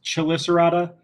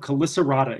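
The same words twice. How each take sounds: First: The word does not begin with a K sound. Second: The word begins with a K sound. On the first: "a lot of times you'll hear it pronounced Chelicerata" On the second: "it usually is pronounced as a K sound"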